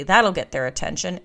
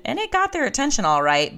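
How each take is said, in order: First: Said in the usual way. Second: "got" punched high, pitch jumping up; ironic stress on got. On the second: Real, not acted. To listeners, ironic stress on "got". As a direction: lean hard on "got", wry and ironic.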